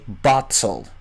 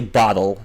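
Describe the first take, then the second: First: The middle t is a clear t. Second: The middle t is a quick flap. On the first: "They say bottle" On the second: "they don't flap their T's uh, as we Americans do. They don't say bottle"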